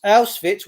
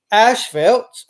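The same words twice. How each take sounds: First: Auschwitz said as "Owss-fits", falling; corrected name. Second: Auschwitz said as "Owsh-felt" with a rising tune; a stumbling "Owsh-felt" for Auschwitz, trailing up unsure; first go at the name. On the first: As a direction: fix the word: Auschwitz as "Owss-fits" with a settled fall. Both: Shown as a demonstration. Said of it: "wherever it was".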